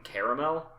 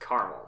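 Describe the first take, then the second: First: The second a is sounded, giving three syllables. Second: The second a is silent, giving two syllables. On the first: The speaker calls it wrong. "it technically it does follow the spelling" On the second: The speaker calls it right. "no, it's caramel"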